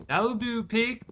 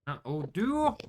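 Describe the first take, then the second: First: Higher farmer voice quoting Babe; playful Babe farmer impression, voice pitched up; mock farmer quote. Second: Said in the usual way. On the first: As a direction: do the old farmer from Babe, gently pleased.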